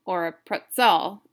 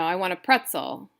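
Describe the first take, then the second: First: "pretzel" stressed on its second syllable, pret-ZEL. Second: Said in the usual way. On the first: Shown as a demonstration. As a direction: lean on the end of "pretzel". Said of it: "they stress the second syllable". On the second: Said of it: "stress the second syllable".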